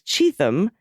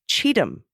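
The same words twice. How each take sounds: First: The middle has a 'th' sound as in thing. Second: The middle sounds like 'cheat him', t then h. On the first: The speaker calls it wrong. "with a T H pronunciated like thing" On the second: The speaker calls it right. "actually it's Cheatham like Cheatham"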